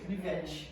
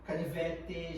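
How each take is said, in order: First: The final t sounds like ch. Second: The final t is a plain t sound. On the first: This is how people in the speaker's region say it. "we say canivete" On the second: This is how people from the north say it. "if we go to the north of Brazil, they don't do that"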